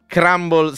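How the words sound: It is pronounced the English way, as crumble. The speaker calls it wrong. "leggerò in maniera scorretta e chiedo scusa in inglese"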